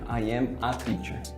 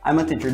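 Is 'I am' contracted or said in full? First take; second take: full; contracted. First: 'I am' is said as two full words. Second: 'I am' is contracted and linked to 'a'. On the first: The speaker calls it wrong. "do que se eu falasse I am a teacher" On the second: The speaker calls it right. "Olha como fica muito mais natural"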